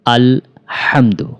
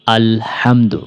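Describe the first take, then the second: First: "হামদু" again with a thin, light h. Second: "হামদু" with a light, thin h. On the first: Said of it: "পাতলা করে উচ্চারণ করতে হবে". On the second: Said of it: "হায়ের উচ্চারণটা পাতলা করে উচ্চারণ করতে হবে". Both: Shown as a demonstration.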